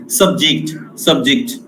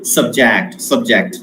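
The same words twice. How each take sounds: First: Subject stressed on the first syllable, SUB-ject; noun stress. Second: Subject stressed on the second syllable, sub-JECT; verb stress. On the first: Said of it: "as a noun". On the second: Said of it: "as a verb". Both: Shown as a demonstration.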